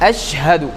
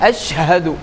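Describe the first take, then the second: No difference in how they are said.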